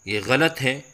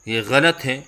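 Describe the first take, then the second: No difference in how they are said.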